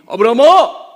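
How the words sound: The name is called suddenly and startlingly.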